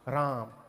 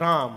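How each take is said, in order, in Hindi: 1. राम छोटा बोला जाता है और जल्दी-जल्दी दोहराया जाता है। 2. राम एक बार बोला जाता है और लंबा खींचा जाता है। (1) "ऐसे नहीं जपते थे" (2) "एक बार राम बोल के सौ डेढ़ सौ खींच दे रहे हैं"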